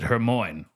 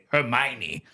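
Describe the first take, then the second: First: The name is sounded out letter by letter. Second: The name is said in its usual form. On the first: The speaker calls it wrong. "I always pronounced it Hermione because that's how her name was spelled" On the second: The speaker calls it right. "that's how you say Hermione"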